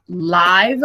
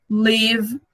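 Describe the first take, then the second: First: Live said with an "eye" vowel; "Live" as the word for a live broadcast; long-i pronunciation. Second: Live said with a short i, as in "give"; "live" as the verb, short vowel; short-i pronunciation. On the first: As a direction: make "Live" rhyme with "five". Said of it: "Aí a pronúncia já é outra". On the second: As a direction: make "live" rhyme with "give". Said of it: "é o verbo viver". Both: Shown as a demonstration.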